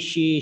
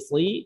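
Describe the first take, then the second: First: The syllable begins with an sh sound. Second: The syllable begins with a plain s sound. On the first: The speaker calls it wrong. "bukan shi" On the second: The speaker calls it right.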